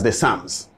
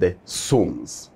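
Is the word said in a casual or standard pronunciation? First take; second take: casual; standard. First: The word has a casual, everyday pronunciation. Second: The word has a careful, standard pronunciation. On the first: The speaker calls it wrong. "in the layman's pronunciation" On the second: The speaker calls it right. "when it comes to the right English"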